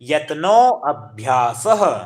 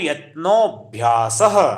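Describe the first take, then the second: First: The two words are said separately, not joined. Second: The two words run together into one. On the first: "संधि विच्छेद करके हो गए आपका अभ्यास" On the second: "संस्कृत में पढ़ना होगा एक सात्र में"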